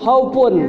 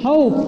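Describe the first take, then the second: First: The word continues with its full ending. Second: The word stops after the held vowel sound. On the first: The reading continues past this word. "Kalau dia nerus bukan terjadi madlin" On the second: The reading pauses at this word. "kalau misalkan terjadi madlin itu diberhentikan"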